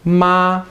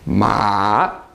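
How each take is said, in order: First: The pitch stays level and steady throughout. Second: The pitch dips down, then rises again. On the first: It means mom. "Your voice just stays steady" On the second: It means horse. "a tone that goes down and then back up again"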